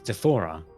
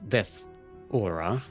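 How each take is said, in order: First: It is said run together as one word. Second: It is said as two separate words. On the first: The speaker calls it right. "it's Death Aura. It's one word" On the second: The speaker calls it wrong. "It's not Death Aura"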